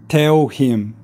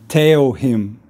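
Both takes have the same delivery.

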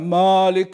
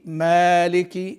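First: The a vowel is heavy and dark. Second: The a vowel is light and thin. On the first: The speaker calls it wrong. "ولا تكون مفخمة" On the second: The speaker calls it right. "يكون فيها الترقيق المناسب لها"

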